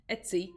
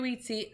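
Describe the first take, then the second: First: "Etsy" starting like "et" in "bet"; Etsy as ET-see. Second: "Etsy" starting like the word "eat"; Etsy as EAT-see. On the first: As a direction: correct to "Etsy" with a short e, ET-see. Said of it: "or do you say Etsy". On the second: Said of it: "I say Etsy as in, like, E A T". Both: Real, not acted.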